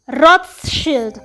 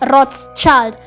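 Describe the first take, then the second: First: The name is said with a German pronunciation. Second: The name is said with an American pronunciation. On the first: "That's how you say it in German" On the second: "The Americans pronounce it as Rothschild"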